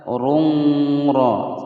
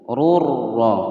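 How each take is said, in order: First: A nasal hum is heard before the r. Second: The n merges into r with no nasal hum. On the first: The speaker calls it wrong. "tidak boleh membaca rungro, salah ya" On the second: The speaker calls it right. "Cara membacanya dimasukkan tanpa dengung, masuk tanpa dengung"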